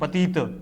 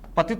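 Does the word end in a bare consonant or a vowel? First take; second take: vowel; bare consonant. First: The final consonant is said in full, with a vowel. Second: The final consonant is cut short, with no vowel. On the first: The speaker calls it right. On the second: The speaker calls it wrong.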